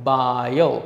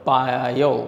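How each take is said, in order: No difference in how they are said.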